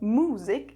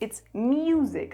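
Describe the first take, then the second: First: The vowel follows the m with no y glide. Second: A y glide comes between the m and vowel. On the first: The speaker calls it wrong. "It's not music, so it wouldn't be M U S" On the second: The speaker calls it right. "it would be M J U S"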